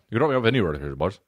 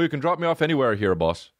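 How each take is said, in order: First: The sentence is mumbled quietly and unclearly. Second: The sentence is spoken clearly and distinctly. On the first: "He says something like" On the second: "it wasn't even like as clear as I said it"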